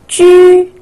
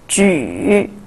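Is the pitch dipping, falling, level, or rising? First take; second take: level; dipping. First: The pitch stays high and level. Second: The pitch dips low then rises.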